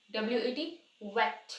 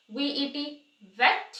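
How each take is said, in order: First: वेट with rounded lips; w in wet. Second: वेट slowly, teeth on lip, rising; slow वेट with a hard v; v in vet. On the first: (होंठ गोल करके वेट) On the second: (धीमे से वेट, दाँत होंठ पर) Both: Shown as a demonstration. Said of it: "तो difference देखो".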